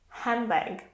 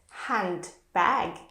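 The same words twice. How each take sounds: First: The D in the middle is dropped. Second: The D in the middle is kept.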